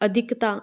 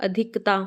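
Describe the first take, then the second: Both takes have the same delivery.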